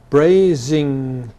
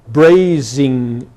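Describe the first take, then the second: No difference in how they are said.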